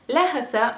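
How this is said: The word is said in a dialect form. "they are saying it with an accent"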